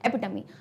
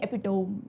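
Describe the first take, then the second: First: The ending sounds like 'tummy'. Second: The ending does not sound like 'tummy'. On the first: The speaker calls it right. "टमी बोलते हैं" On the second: The speaker calls it wrong. "नहीं क्या है ये?"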